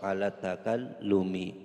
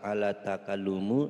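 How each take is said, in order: First: The final vowel of the last word is i. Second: The final vowel of the last word is not i. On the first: The speaker calls it right. "Harus dibaca kasroh" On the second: The speaker calls it wrong.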